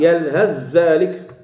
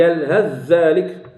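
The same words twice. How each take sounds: First: The th sound merges into the dh. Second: The same.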